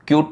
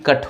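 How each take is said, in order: First: The vowel sounds like 'yoo'. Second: The vowel sounds like 'uh'. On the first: The speaker calls it wrong. "क्यूट नाही" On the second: The speaker calls it right. "सी यू टी कट होतं"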